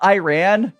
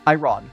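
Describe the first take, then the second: First: Iran is said with an American pronunciation. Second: Iran is said with the native pronunciation. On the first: The speaker calls it wrong. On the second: The speaker calls it right.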